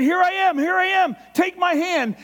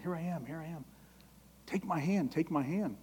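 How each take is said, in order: First: High, loud, urgent call of God; loud outstretched call; calling out loudly. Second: Much softer, tender, pleading; soft tender plea; tender gentle call. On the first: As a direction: shout it out to someone being swept away. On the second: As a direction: coax them gently to take your hand. God gently calling alongside you. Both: Acted.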